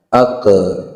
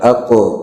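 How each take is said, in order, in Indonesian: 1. Konsonan terakhir memantul menjadi vokal yang berulang. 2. Konsonan terakhir memantul sebentar tanpa tambahan vokal. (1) "Contoh pengucapan yang salah" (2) "Tapi yang tetap benar"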